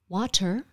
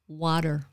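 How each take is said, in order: First: The middle consonant is a crisp T sound. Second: The middle consonant is a soft D sound. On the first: It sounds British. The speaker calls it wrong. "it's not water" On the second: It sounds American. The speaker calls it right. "change the T sound to a D sound"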